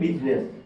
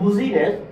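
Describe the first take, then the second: First: The word is said with two syllables. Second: The word is said with three syllables. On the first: The speaker calls it right. "এখানে আপনার এটা উচ্চারণ হয়ে গেছে বিজনেস" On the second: The speaker calls it wrong. "তাহলে একটু বিশ্রী হয়ে যায় না?"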